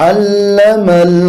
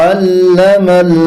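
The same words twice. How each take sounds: Both takes have the same delivery.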